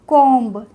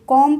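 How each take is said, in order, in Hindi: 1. अंतिम b की ध्वनि बोली जाती है। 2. अंतिम b की ध्वनि मौन है। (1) "कॉम्ब ऐसे पढ़ेंगे, नहीं पढ़ेंगे" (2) "कॉम पढ़ेंगे, इसमें बा का प्रोनाउंसिएशन नहीं करेंगे"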